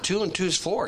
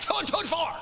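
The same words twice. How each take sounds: First: It is said calmly, at normal loudness. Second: It is said loudly, as a shout. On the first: The point is simply stated as obvious. The speaker calls it right. "Or you just, come on" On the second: Force is used to make the point. The speaker calls it wrong. "Do you have to yell and scream to do that? I'm telling you"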